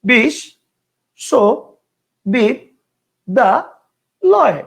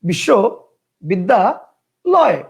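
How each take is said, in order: First: The word is broken into five separate chunks. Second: The word is broken into three separate chunks. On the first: "কেউ উচ্চারণ করতো ... কয়টা হলো? পাঁচটা।" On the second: "কয়টা হলো? তিনটা।"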